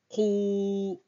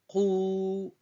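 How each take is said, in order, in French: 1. Ça commence par un k profond, de la gorge. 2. Ça commence par un k profond, de la gorge.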